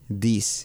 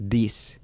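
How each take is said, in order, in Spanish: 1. Empieza con un sonido d. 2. Empieza con un sonido d.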